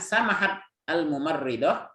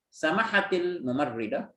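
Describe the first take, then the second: First: The final t of the first word is silent. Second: The final t joins the next word with i. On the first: "kalau umpamanya kita sukunkan" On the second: "kalau mau disambung"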